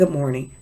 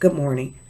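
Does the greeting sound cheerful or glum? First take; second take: glum; glum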